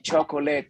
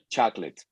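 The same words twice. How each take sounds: First: It is said the Spanish way, four syllables. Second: It is said the English way, two syllables. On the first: "ustedes tienen ganas de decir chocolate, porque es el español" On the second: "en inglés se convierte en ch chocolate"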